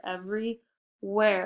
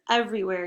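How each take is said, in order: First: "everywhere" slowly in two parts, every, where; split compound word. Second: Said in the usual way. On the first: Shown as a demonstration. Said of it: "Ooh, compound word". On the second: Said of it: "compound word".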